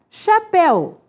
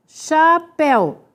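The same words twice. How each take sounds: First: Said in the usual way. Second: "chapéu" slowly as cha, péu; syllable by syllable. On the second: Shown as a demonstration. Teacher showing the stressed syllable, "chapéu" slowly divided. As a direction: split "chapéu" into two drawn-out beats.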